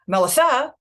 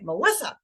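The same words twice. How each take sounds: First: The stress falls on a syllable other than the second. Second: The stress falls on the second syllable. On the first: The speaker calls it wrong. "my mom won't say Melissa" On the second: The speaker calls it right. "she'll say Melissa. ... the M and the S are the unstressed ones"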